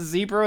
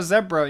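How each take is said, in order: First: "zebra" as ZEE-bruh; long-e zebra. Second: "zebra" as ZEB-ruh; short-e zebra. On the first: Co-host explains his slip, "zebra" as ZEE-bruh. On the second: Co-host explains his slip, "zebra" as ZEB-ruh. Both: Shown as a demonstration. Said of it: "whether you pronounce zebra or zebra".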